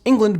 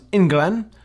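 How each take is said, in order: First: It is said in standard English pronunciation. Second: It is said in a Caribbean-influenced dialect pronunciation.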